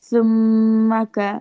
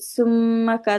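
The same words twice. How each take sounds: First: The first consonant is a soft th sound. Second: The first consonant is a hissing s sound. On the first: The speaker calls it right. "জিহ্বা বের হয়ে উপরে দুই দাঁতের সাথে লাগবে" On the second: The speaker calls it wrong. "তাহলে এটা সিন উচ্চারণ হয়ে গেল"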